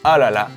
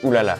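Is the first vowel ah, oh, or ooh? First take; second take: ah; ooh. First: The first vowel is an ah sound. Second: The first vowel is an ooh sound. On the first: The speaker calls it right. "We say ah la la" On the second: The speaker calls it wrong. "We don't say ooh la la"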